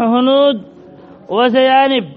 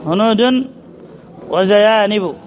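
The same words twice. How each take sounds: First: Said in the usual way. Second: Hunudun, zayanibu with full case endings; damma endings sounded on hunudun, zayanibu. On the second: Shown as a demonstration. Teacher showing students the visible damma, endings of hunudun, zayanibu sounded. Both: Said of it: "الضمة ظاهرة".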